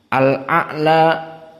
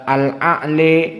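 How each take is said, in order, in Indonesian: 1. Vokal akhir adalah bunyi 'a' yang terbuka. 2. Vokal akhir condong ke bunyi 'e'.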